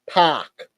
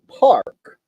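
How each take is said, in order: First: It is said in an Australian-style accent. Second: It is said in the speaker's own accent. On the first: "Australia, New Zealand, they say park" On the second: "for us, we say park"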